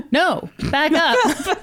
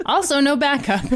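First: Drawn out, ironic repeat; slow deadpan echo. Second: Laughing through the words. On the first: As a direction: stretch it out, dry and ironic. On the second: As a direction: chuckle while saying it. Laughing repeat. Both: Real, not acted.

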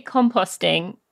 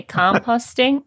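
First: Composting with a long rounded O in the second syllable, British. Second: Composting with a short O, kom-POST-ing, American; slower, say composting the American way. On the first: British runner showing the host her composting. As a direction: say composting the English way, kom-POH-sting. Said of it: "So I say". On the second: British author imitating the host's American composting. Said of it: "How you'd say". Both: Shown as a demonstration.

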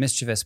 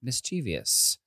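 First: Mischievous said "MIS-chiv-us"; Mischievous without the extra "ee"; usual pronunciation. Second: Mischievous said "mis-CHEE-vee-us"; mischievous with an extra "ee" syllable; alternative pronunciation. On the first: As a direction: stress the start of Mischievous, three syllables. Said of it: "when I read that word". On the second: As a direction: stress the middle of mischievous. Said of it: "I wanted to say". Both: Shown as a demonstration.

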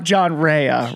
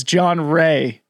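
First: REA drawn out as two syllables, RAY-uh; mispronounced surname. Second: Said in the usual way. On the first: Shown as a demonstration. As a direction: say "Rea" slowly with an extra "uh" ending. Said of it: "it's John Ray, not". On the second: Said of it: "not John Rea, right?".

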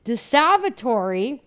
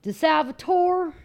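First: DeSalvatore said slowly with the final E sounded; Italian pronunciation. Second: DeSalvatore called out high, final vowel dropped; American roll-call DeSalvatore, raised pitch; Ohio roll call. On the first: Shown as a demonstration. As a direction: pronounce every syllable of DeSalvatore, ending on "ree". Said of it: "I actually learned pronouncing in Italy". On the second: Retold or imitated. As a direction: call DeSalvatore slowly, ending on "tor". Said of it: "it kinda sounded like this".

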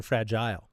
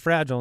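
First: Second "fragile" as FRAJ-ile, ending like "aisle"; long-I pronunciation. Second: First "fragile" as FRAJ-ul; short pronunciation. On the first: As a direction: say "fragile" to rhyme with "tile". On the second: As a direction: say "fragile" with the second vowel swallowed. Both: Shown as a demonstration. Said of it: "maybe there were tiers".

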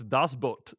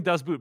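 First: "Das Boot" with an open "tahs" and a long "boat"; "Das Boot" pronounced correctly as in German; corrected German Das Boot. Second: "Das Boot" with a short "tus" and "put"; "Das Boot" mispronounced American style; Americanized Das Boot. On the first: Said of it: "I looked it up". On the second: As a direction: say "Das Boot" the way the hosts used to. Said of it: "we were all saying Das Boot". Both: Shown as a demonstration.

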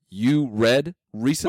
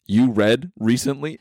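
First: Slow, higher incredulous question; mock disbelief. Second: Slow rising incredulous question; mock disbelief. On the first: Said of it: "You're like". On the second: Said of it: "you were like". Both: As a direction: act stunned he reads.

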